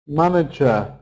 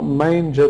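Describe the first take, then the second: First: "Manager" with a short a in the first syllable; manager, not manger. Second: "manger" with a long ay in the first syllable; contrasting wrong word. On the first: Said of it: "Not manger, that's different". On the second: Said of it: "that's different". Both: Shown as a demonstration.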